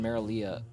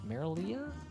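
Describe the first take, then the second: First: The A in the name is left silent. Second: The A in the name is clearly pronounced. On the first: The speaker calls it wrong. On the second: The speaker calls it right.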